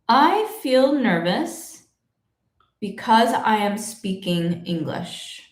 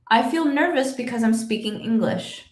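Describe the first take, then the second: First: The sentence is spoken slowly and carefully. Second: The sentence is spoken quickly at natural speed.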